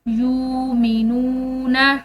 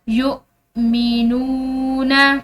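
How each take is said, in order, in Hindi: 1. यह बिना शब्द के बीच में रुके सहजता से बहता है। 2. इसके बीच में एक तेज़ झटका है। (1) "अगर ये दरमियान में हमजा ना होता तो हम इसको पढ़ते" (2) "हमने इसको झटके के साथ पढ़ना है"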